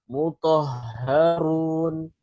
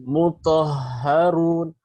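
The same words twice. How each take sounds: Both takes have the same delivery.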